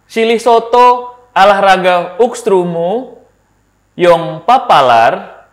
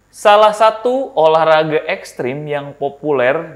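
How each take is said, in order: First: The vowels are swapped for various other vowels. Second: The vowels are pronounced in the normal way.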